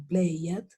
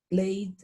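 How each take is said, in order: First: The ending is an extra syllable like 'id'. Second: The ending is a single D sound. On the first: The speaker calls it wrong. "ni play it" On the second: The speaker calls it right. "Yo lo pronuncio con una sola D"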